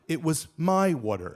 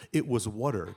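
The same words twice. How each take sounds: First: My pressed and falling; stress on my. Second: Said in the usual way. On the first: Retold or imitated. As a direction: hit my in "It was my water". Retort stressing whose water. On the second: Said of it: "incredulously saying".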